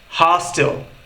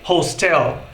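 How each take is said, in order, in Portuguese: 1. A tônica está na primeira sílaba. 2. A tônica está na segunda sílaba. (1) "quando a pronúncia correta é hostel" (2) "muitos brasileiros têm a tendência em pronunciar hostel, simplesmente porque eles lembram que hotel em inglês é hotel"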